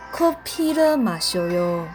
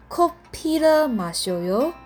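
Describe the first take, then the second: First: The pitch falls at the end. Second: The pitch rises at the end. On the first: It states that someone drinks coffee. "喝咖啡的韩文怎么讲呢" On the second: It asks whether someone wants to drink coffee. "鱼尾的요在疑问句的时候语调是上扬的"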